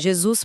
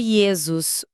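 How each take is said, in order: First: The name begins with a J consonant sound. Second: The name begins with a soft y-like glide. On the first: This is the modern form. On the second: This is the older Greek and Latin form.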